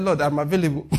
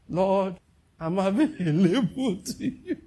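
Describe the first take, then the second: First: Said in the usual way. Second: Higher, slow, laughing through the offer; laughing, mock-earnest plea to the Lord; mock eager volunteer. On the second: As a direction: ham up Judas offering himself, stretching out available. Judas volunteering, retaken mockingly.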